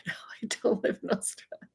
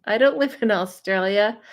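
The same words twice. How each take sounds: First: Quick whispered denial through a laugh; hushed giggling no. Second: Said in the usual way. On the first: Real, not acted. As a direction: breathe it out fast with a laugh. Laughing reply to the comment.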